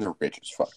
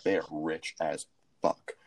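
First: Said in the usual way. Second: "They are rich as fuck" slowly, word by word; emphatic restatement. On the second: Real, not acted.

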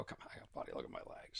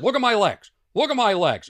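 First: Whispered, half-confiding; conspiratorial whisper; mock whisper. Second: Louder and higher, showing off; loud playful bragging; loud mock boast. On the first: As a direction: drop to a sly whisper. Retold routine, hushed version. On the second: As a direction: show off with a big voice. Retold boast to gym kids.

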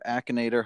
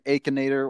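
First: "Akinator" opening with a short A, as in "back"; short-A pronunciation. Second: "Akinator" opening with AY, as in "ache"; long-A pronunciation. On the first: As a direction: say "Akinator" as ACK-in-ay-tor. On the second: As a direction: say "Akinator" as AY-kin-ay-tor. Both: Shown as a demonstration. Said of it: "however you pronounce it".

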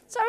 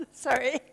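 First: Sorry through a real laugh. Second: Said in the usual way. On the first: Real, not acted. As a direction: apologise while still laughing. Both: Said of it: "I hate to do that".

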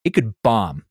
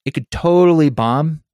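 First: Said in the usual way. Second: "totally" stressed higher and louder; emphatic. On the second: Real, not acted. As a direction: lean hard on "totally". Repeated with intensifier.

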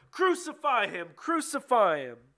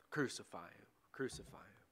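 First: High, loud crowd chant; shouting all the louder. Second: Very soft, low repetition; hushed echo. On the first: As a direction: shout the demand, drawing out the repeat. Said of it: "they shouted all the louder". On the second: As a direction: let the chant fade away, almost under the breath. Shouts prevailed, echoed in a hush. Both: A narrator's reading.

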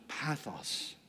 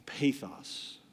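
First: "pathos" with short a, as in path; short-a pronunciation. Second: "pathos" with long a, as in pay; long-a pronunciation. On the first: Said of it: "in the Greek language is called". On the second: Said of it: "or pathos". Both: Shown as a demonstration.

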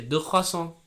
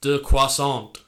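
First: "Deux croissants" pitched up, in a French accent. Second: "Deux croissants" louder, with a hard English final T; anglicised pronunciation. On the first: Showing how to order in the shop, "Deux croissants" in French accent. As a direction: say "Deux croissants" the French way, nasal ending, silent final consonants. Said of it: "try and speak in a French accent". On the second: Showing what marks a tourist, "Deux croissants" badly anglicised. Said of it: "instead of". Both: Shown as a demonstration.

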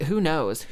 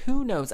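First: Said in the usual way. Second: Much higher mock exclaim; high who knows. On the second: Real, not acted. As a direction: toss it up high with a shrug.

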